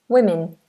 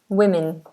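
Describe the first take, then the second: The two takes are said the same way.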